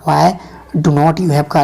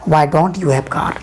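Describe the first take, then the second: First: Do not is said as two full words. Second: Do not is contracted into one syllable, don't. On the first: "डू नॉट" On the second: "डू नॉट को short में डोंट बोला जाता है"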